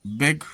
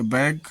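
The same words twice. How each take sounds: First: बेग with a close, long "ay" vowel. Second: बैग with an open "ae" vowel. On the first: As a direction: say बेग with "ay" as in vague. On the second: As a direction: say बैग with "a" as in cat. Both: Shown as a demonstration. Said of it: "बेग या बैग".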